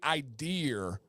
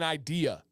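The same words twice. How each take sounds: First: The word ends with an added r sound. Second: The word ends in a plain vowel. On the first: The speaker calls it wrong. "Where's the R?" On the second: The speaker calls it right. "it is an idea. Enunciate clearly"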